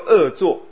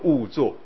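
First: The first syllable is read as 'e', meaning evil. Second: The first syllable is read as 'wu', meaning dislike. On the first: An evil deed. The speaker calls it wrong. "不要念作恶作" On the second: Regretting what one did before. The speaker calls it right. "要念作恶作"

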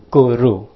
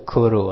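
First: The word begins with a g sound. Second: The word begins with a k sound. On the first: The speaker calls it right. "这是念Guru，个的发音" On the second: The speaker calls it wrong. "不是Kuru 啊"

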